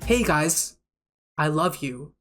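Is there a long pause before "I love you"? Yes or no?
yes. A long pause comes before "I love you."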